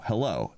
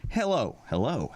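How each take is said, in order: First: Said in the usual way. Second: Voice-over takes. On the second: Shown as a demonstration. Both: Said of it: "wasn't sure if I was supposed to do the three takes".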